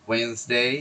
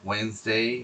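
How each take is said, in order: Both takes have the same delivery.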